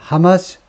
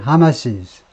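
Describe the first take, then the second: First: It ends in a plain s sound, two syllables. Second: It ends with an extra iz syllable, three syllables. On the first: The possessive is written with an apostrophe only. "아파스트로피가 붙으나 마나 그냥 하마스예요" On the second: The possessive is written with apostrophe s. "소유격은 하마시스"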